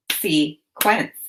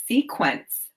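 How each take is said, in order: First: "Sequence" split into two syllables with a pause between; "Sequence" broken as se... quence; chopped syllables. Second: Said in the usual way. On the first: Shown as a demonstration. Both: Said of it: "Now chop the syllables in".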